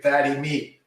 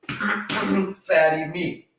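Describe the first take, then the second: First: Said in the usual way. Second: "Fatty meat" drawn out very slowly and higher; slow emphatic. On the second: Shown as a demonstration. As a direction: say "Fatty meat" slowly, every word weighted.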